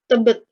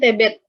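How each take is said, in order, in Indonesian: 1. Ini diucapkan dengan aksen Indonesia baku. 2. Ini diucapkan dengan aksen Indonesia timur. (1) "tidak bisa mengucapkan Tebet" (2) "orang-orang mungkin yang ada di Indonesia bagian timur gitu"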